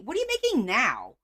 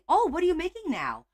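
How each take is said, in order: First: It is asked in an annoyed tone. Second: It is asked in a friendly, curious tone.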